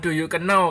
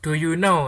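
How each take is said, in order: First: The word know begins with a k sound. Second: The word know begins with an n sound. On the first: The speaker calls it wrong. "bukan do you know" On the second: The speaker calls it right. "K-nya jangan dibaca ya"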